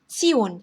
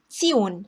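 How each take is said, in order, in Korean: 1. 그 자음은 ts 소리입니다. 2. 그 자음은 ts 소리입니다.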